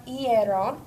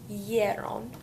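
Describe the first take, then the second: First: "hierron" begun with a separate "ee", like "ee-EH-ron"; original i-spelling sound. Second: "hierron" opened with a Y glide, like "YEH-ron"; changed Y sound. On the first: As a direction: open "hierron" on an "ee" vowel. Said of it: "it's gonna turn into hierron". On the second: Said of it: "the I turns into the Y". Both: Shown as a demonstration.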